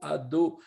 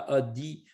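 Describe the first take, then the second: First: The word ends with an o vowel. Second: The word ends with an i vowel. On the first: The speaker calls it right. "alors que c'est un o" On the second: The speaker calls it wrong. "une sorte de chirik, un i"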